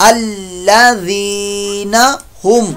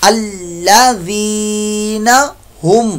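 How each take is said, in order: Both takes have the same delivery.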